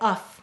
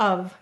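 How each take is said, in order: First: The word ends with an unvoiced f sound. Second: The word ends with a voiced v sound. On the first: This is how it may once have been said. "maybe we used to say uff" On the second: This is how it is said today. "it changed to of"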